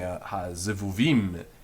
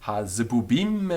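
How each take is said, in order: First: The middle consonants are pronounced as v. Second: The middle consonants are pronounced as b. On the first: This is the later standard pronunciation. "instead of saying" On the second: This is the old Galilean pronunciation. "They said"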